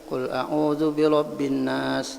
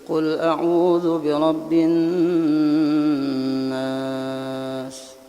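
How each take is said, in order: First: The doubled n has no held nasal hum. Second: The doubled n has a long nasal hum. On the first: The speaker calls it wrong. "Bila membaca kada berdengung, salah bacanya" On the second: The speaker calls it right. "Panjangi, dengungakan"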